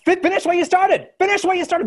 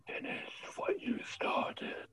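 First: High, loud shouted demand; shouting crowd. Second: Unvoiced, slow breathy whisper in the ear. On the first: Acted. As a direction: scream the words back at them. Crowd echoes the voice. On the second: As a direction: breathe it right into their ear. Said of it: "barely a whisper".

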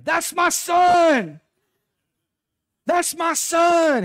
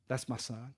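First: High, drawn-out full-force yell; proud scream. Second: Very soft, unhurried fatherly murmur; tender reassurance. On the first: Retold or imitated. Dad cheering his son's hit from the dugout, proud scream. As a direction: holler it long and high across a ballfield. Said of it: "I would start screaming". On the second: Acted. God as dad when you strike out, tender reassurance. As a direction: claim the child quietly and gently. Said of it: "your dad is right there".

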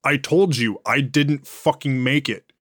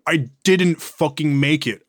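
First: Said in the usual way. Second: Slowed down and louder, hitting the word didn't; emphatic denial. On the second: Acted. Walter insisting to the agent, slow and stressed on didn't. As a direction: spell out each word to the interrogator, hammering didn't. Repeats the denial more forcefully.

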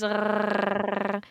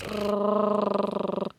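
First: Rrrr rolled at the back of the throat; guttural uvular rrrr like French. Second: Rrrr trilled forward with the tongue tip; Spanish rolled r. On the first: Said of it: "we roll our R's in the back of our throats". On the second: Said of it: "Like it's forward". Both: Shown as a demonstration.

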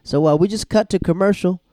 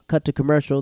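First: Big loud call to break; loud announcer cut to break; mock announcement. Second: Said in the usual way. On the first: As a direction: boom it out like a TV host. Host calls out a cut.

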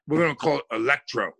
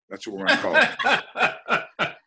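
First: Said in the usual way. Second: High, slow and laughing through it. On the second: Real, not acted. Host repeats the drink name, laughing. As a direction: crack up while repeating the name.

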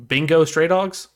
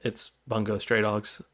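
First: Bingo said slow, high and loud, as a wrong title; buddy's mispronunciation. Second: Bungo said softly and slow, as the right title; correcting the buddy's Bingo. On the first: Retold or imitated. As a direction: imitate a buddy mangling Bungo into Bingo. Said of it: "as my buddy put it". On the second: Shown as a demonstration. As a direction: set the record straight on Bungo.

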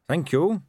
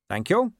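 First: Higher, earnest captain; brisk polite thanks; Carrot voice. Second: Higher, earnest captain; polite and sincere thanks; Carrot voice. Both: A narrator's reading.

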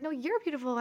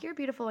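First: "you're" punched higher, turning it back; stress on YOU'RE. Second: Said in the usual way. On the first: Retold or imitated. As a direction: lean on "you're" in playful contradiction. Compliment turned back on speaker.

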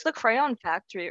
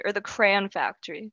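First: Crayon said as "CRAY-on"; two-syllable crayon. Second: Crayon said as "cran"; one-syllable crayon. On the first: Asking where the factory is, two-syllable crayon "cray-on". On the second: Teasing with his pronunciation, one-syllable crayon "cran". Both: Shown as a demonstration. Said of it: "I don't call it crayon".

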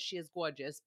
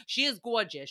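First: Muttered aside. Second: Said in the usual way. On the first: Real, not acted. Repeated as low aside.

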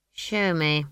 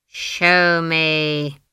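First: Said in the usual way. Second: Loud, drawn-out icy order; icy command. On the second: A narrator's reading. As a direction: command it coldly, stretching each word. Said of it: "her voice had ice in it".

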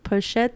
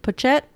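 First: Tentative, rising "Pochette" with sh in the middle; second-guessed pronunciation. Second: "Pochette" as po-CHET, with a hard ch; tentative, rising "Pochette" with tch in the middle; unsure pronunciation. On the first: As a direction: try "Pochette" with a sh sound, questioning. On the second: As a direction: try "Pochette" with a tch sound, questioning. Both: Real, not acted. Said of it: "I don't know how to pronounce it".

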